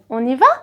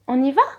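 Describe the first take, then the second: First: The voice rises at the end. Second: The same.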